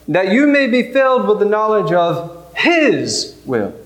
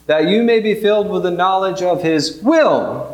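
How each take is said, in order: First: The word 'his' is given special stress. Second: The word 'his' is not given special stress.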